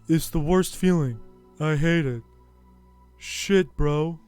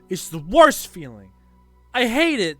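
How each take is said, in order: First: It is delivered in a dull, weary tone. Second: It is delivered in a sharp, cutting tone.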